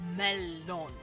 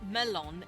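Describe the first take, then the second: First: The L sound is held longer. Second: The L sound is short. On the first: The speaker calls it right. "it's melon. And that's because there's two L's" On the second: The speaker calls it wrong. "it's not just melon"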